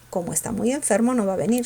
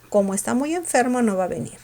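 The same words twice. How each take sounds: No difference in how they are said.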